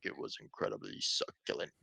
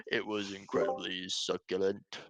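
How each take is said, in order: First: Hushed, low mock-solemn quote; quiet, savoring impression of an eccentric interviewee; imitating his odd delivery. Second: Lightly imitated eccentric interviewee, measured and deliberate; voiced at normal pitch, a touch theatrical; imitating his odd delivery. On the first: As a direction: lightly imitate him, soft and low. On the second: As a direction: quote him with mild mock solemnity. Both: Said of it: "he actually just talks like that".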